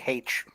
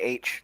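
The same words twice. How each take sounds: First: The letter is said in a Newfoundland accent. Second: The letter is said in a standard accent. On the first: "If you start talking to a newfie, they say H" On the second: "they don't say H"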